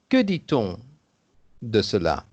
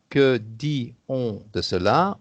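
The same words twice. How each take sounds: First: The t of dit links into on. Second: The t of dit is silent before on. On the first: The speaker calls it right. "on dit" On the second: The speaker calls it wrong. "On ne dit pas"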